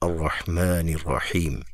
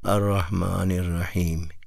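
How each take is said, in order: First: The words are articulated firmly and strongly. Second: The words are articulated loosely and weakly. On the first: "میں ذرا مضبوط کر لوں" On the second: "میں لوز پڑھوں"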